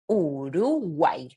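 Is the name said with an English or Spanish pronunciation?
Spanish. The name is said with Spanish vowel sounds. The speaker calls it right. "In Spanish, we say Uruguay"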